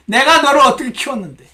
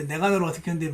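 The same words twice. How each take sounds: First: High, loud reproachful scolding; nagging. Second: Said in the usual way. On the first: Acted. Aunt berating the niece she raised, nagging loudly. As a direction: pour out an aggrieved nag. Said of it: "고모가 영락없이 잔소리를 퍼붓기". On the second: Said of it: "혹시 여러분 부모님 가운데".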